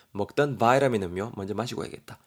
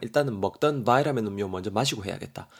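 First: 바이라민 said vai-ra-min again; American vitamin. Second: 바이라민 said vai-ra-min, flapped t; American vitamin. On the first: Teacher repeating the 바이라민 pronunciation. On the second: Teacher showing the 바이라민 pronunciation. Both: Shown as a demonstration. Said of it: "바이라민 이렇게도 발음이 됩니다".

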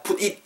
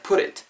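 First: "put it" split into two separate words; unlinked. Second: "put it" run together like "purit"; linked. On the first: Teacher shows the difficult way, "put it" unlinked. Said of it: "어렵잖아요". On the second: Teacher shows the easier way, "put it" linked. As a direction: flap the t of "put" straight into "it". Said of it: "이렇게 붙겠죠". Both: Shown as a demonstration.

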